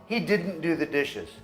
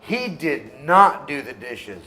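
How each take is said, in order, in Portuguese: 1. Didn't é contraído, sem ênfase especial. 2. Did not é dito por extenso e com ênfase. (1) "Eu poderia só falar" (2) "Mas eu estou enfatizando, estou contradizendo a mentira"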